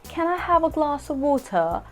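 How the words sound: It is said in a British accent. "if I had to say a sentence in the British accent"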